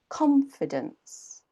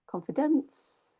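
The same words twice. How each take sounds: First: The stress is on the first syllable. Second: The stress is on a later syllable. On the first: The speaker calls it right. "con is a bit higher, a bit louder" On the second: The speaker calls it wrong. "native English speakers will hear a different word"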